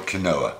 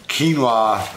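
First: Quinoa said "kuh-NO-uh", three syllables, stress on the middle; quinoa spelled-out way. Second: Quinoa said "keen-wah", stress on the first syllable; quinoa said as written. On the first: Vlogger arguing with viewers over the spelling, says it "kuh-NO-uh". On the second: Vlogger naming the snack in the usual way, "KEEN-wah". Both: Shown as a demonstration. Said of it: "I still say it's spelled quinoa".

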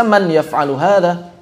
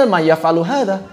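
First: "man yaf'alu hadha" with the n of man said clearly; separate words. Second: "ma yaf'alu hadha" with the n of man merged away, ma-yaf'alu. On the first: Teacher showing students the reading Arabs do not use, "man yaf'alu hadha". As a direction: keep the n in "man" distinct before "yaf'alu". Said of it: "Enggak dibaca". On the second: Teacher showing students how Arabs really say "ma yaf'alu hadha". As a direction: drop the n so "man" runs into "yaf'alu". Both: Shown as a demonstration.

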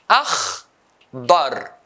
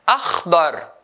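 First: "Akhdar" split into akh and dar, long pause between; syllable by syllable. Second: Said in the usual way. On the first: Shown as a demonstration. Teacher dividing a colour word, syllable by syllable. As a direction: break "Akhdar" into two isolated beats. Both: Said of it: "two syllables".

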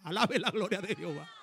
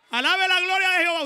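First: Said in the usual way. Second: Much higher and louder cry; shouted praise. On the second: Real, not acted. Preacher shouting the repeated praise to the congregation, loud and high. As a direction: shout it out to the church.

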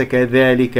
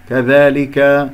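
First: كذلك with the long a bent toward "ey"; wrongly tilt the alef in كذلك; faulty, leaning vowel in كذلك; mistaken alef. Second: كذلك with a pure open long a; open, measured "dhaa" in كذلك; correct alef. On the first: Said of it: "ليس كذلك". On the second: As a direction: slowly hold a clean alef in كذلك. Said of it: "لا تقل صوت الألف". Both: Shown as a demonstration.

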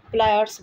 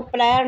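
First: प्लायर्स ending in a clear 'rs'; final S sounded. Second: प्लायर ending on 'r', no final S; wrong form without S. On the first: Teacher correcting the reading of pliers, final S sounded. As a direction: say प्लायर्स with an 's' after the r. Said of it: "प्लायर्स बोला जाता है". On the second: Teacher warning how not to read it, final S missing. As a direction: say प्लायर with the last 's' dropped. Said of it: "इसको प्लायर नहीं पढ़ते". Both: Shown as a demonstration.

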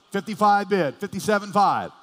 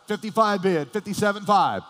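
No difference in how they are said.

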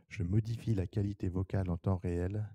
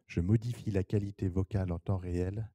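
Both takes have the same delivery.

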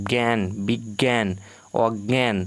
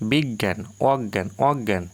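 First: জ্ঞান and বিজ্ঞান said slowly with an extra j-phola sound; বিজ্ঞান drawn out as bigyan, adding a j that should not be there; wrong Bengali pronunciation. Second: বিজ্ঞান said as biggan, with a doubled g and no j sound; অজ্ঞান said oggan, with the জ dropped after the nasal; correct Bengali pronunciation. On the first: Teacher demonstrates the common mistake in বিজ্ঞান to students, slowly. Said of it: "অতিরিক্ত জ ফলা এর সঙ্গে উচ্চারণ করছি".

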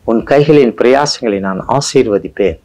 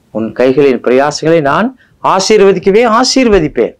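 First: Said in the usual way. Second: Higher and stronger, climbing toward ஆசீர்வதிப்பேன்; rising emphasis. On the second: Acted. Preacher to his congregation, intensifying the promise. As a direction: build the repeat up to a peak on ஆசீர்வதிக்கவே ஆசீர்வதிப்பேன்.

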